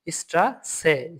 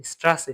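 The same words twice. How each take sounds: First: স্ট্রাসে drawn out slowly; slow pronunciation demo. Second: Said in the usual way. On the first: Shown as a demonstration. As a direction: stretch স্ট্রাসে for students. (স্ট্রাসে ধীরে টেনে বলা)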